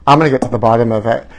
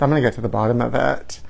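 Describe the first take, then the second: First: Said in the usual way. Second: Quiet fast mutter. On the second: Shown as a demonstration.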